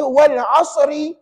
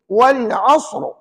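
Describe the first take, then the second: First: The word ends with an added short i vowel. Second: The word ends on the consonant, with no vowel. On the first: The reading continues into the next verse. "Ada dulu pernah saya dengar orang baca wal asri. Kenapa jadi gitu?" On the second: The reader stops at the end of the verse. "Tapi selalunya kita berhenti"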